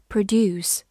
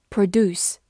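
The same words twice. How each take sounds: First: Said in the usual way. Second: American verb "produce", ending like "doose"; American-accented "produce"; American pronunciation. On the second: Shown as a demonstration. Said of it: "美式发音".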